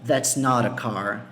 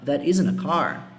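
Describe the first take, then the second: First: "not" in "That's not a car" given weight, spoken slowly; emphatic not. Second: Said in the usual way. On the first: Shown as a demonstration. Teacher demonstrating a stronger denial with stress on "not". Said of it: "tem mais força no não". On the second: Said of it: "é simplesmente uma negação".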